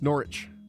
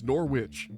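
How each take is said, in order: First: The W in the middle is silent. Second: The W in the middle is pronounced. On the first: It is said the way locals say it. "But I'm told, no, it's Norwich" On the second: It is read the way the spelling suggests. "I look at that, that is Norwich"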